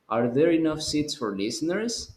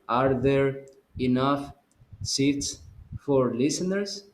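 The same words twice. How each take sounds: First: The sentence is read without any pauses. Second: The sentence is broken up by pauses. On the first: The speaker calls it right. "You don't stop" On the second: The speaker calls it wrong. "So you're not going to say"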